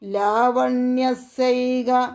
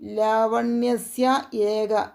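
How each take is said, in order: First: The two words are blended into one. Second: The two words are said apart, unjoined.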